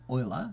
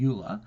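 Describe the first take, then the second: First: The name is said not rhyming with 'ruler'. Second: The name is said to rhyme with 'ruler'. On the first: The speaker calls it right. "but it's Euler. Its pronunciation is Euler" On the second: The speaker calls it wrong. "His name's spelt ruler with an E"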